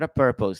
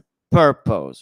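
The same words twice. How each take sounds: First: Purpose is said plainly, without extra force. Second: Purpose is said with a strong, punchy opening P.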